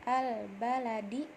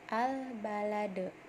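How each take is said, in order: First: The word ends with a short 'i' vowel. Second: The word ends on a bare 'd' consonant. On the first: The reading continues without a stop. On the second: The reader stops at this word.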